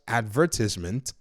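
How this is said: It is said in a British accent.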